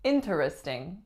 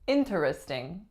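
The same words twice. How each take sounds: First: Every syllable of the word is pronounced. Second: Every syllable of the word is pronounced.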